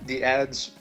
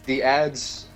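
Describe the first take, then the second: No difference in how they are said.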